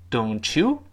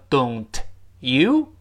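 First: The t and y merge into a ch sound. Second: The t and y are said separately.

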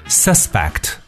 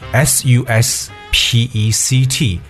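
First: The stress is on the first syllable. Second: The stress is on the second syllable. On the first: It names a person thought guilty of a crime. "suspect 是名词嫌疑犯" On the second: It means to think something is probably true. "suspect 就是一个动词"

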